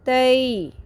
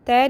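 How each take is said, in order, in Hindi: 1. स्वर a से i की ओर हल्के से सरकता है। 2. स्वर सपाट और झटके से बोला गया एक ही ध्वनि है। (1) "थोड़ी सी इसके अंदर लचक आएगी, मज़ीद नरमी आएगी और कर्व ज़्यादा बनेगा" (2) "तय नहीं पढ़ना"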